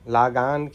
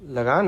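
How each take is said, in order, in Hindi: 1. पहला स्वर दीर्घ है। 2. पहला स्वर ह्रस्व है। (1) "लागान क्या होता है भाई? गलत है।" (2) "लगान होता है ना"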